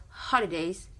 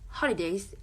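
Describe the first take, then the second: No difference in how they are said.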